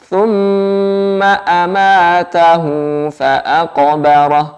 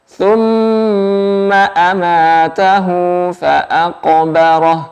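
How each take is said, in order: No difference in how they are said.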